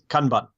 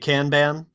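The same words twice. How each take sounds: First: It is said in a clipped, staccato Japanese way. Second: It is said with an American pronunciation. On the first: "the proper Japanese pronunciation, I think, is ... very uh, staccato" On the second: "if you're in America, you're likely to say"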